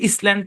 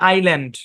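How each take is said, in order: First: The s is pronounced, sounding like iss-land. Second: The s is silent, sounding like eye-land. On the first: The speaker calls it wrong. "যে ব্যক্তি silent letter সম্পর্কে জানে না, উনি তো এটাকে ইসল্যান্ড পড়ে ফেলবে" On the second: The speaker calls it right. "এখানে এসটা সাইলেন্ট। এই শব্দের উচ্চারণ হচ্ছে আইল্যান্ড।"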